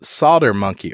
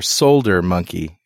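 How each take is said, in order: First: Solder said as "sodder"; silent-L Solder. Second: Solder said with the L sounded; Richardish Solder. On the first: Shown as a demonstration. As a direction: drop the L in Solder. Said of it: "I say solder". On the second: Retold or imitated. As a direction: pronounce the L in Solder, "sole-der". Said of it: "to be Richardish".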